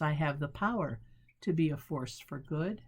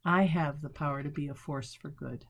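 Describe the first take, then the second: First: Weight the word "power" and let it fall; "power" set apart with a short break; stress on power. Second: Said in the usual way. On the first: Shown as a demonstration. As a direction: lean on "power", then pause before the rest. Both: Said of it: "Change the emphasis".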